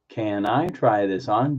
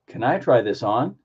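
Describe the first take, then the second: First: The whole phrase is said slowly. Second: The phrase flows together at normal speed. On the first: "Slow it down" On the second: "Put it all together"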